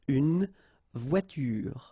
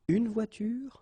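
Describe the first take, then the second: First: A vowel is sounded after the n of une. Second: No vowel is sounded after the n of une. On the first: The speaker calls it wrong. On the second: The speaker calls it right.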